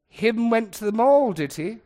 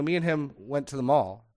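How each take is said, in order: First: Loud, high mock question, dropping at the tag; imitating a mocking mom; mother's mockery. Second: Said in the usual way. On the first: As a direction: tease the bad grammar as Mother would. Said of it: "relentlessly mocking bad grammar". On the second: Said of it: "So if I ever said".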